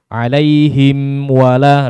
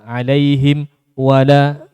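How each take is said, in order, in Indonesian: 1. Kedua kata itu tersambung, dengan dengung sengau yang pendek. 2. Ada jeda pendek yang memisahkan kedua kata. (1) "harusnya kan gitu ya. Satu harokat gunanya" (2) "itu juga ada jeda seperti itu"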